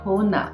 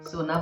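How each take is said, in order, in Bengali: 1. শব্দটি h ধ্বনি দিয়ে শুরু হয়। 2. শব্দটি s ধ্বনি দিয়ে শুরু হয়। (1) "বলে হো না" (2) "সোনা বলতে পারে না"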